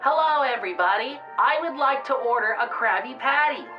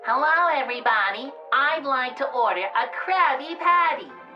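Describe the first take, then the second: First: It is said in a plain, less childish voice. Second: It is said in a childish, silly voice.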